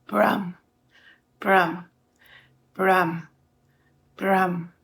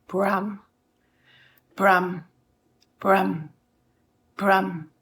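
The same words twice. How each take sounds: No difference in how they are said.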